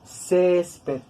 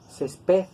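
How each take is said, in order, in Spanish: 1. El acento está en la penúltima sílaba. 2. El acento está en la última sílaba. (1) "pero tiene que sonar grave" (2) "va a sonar aguda, como pared"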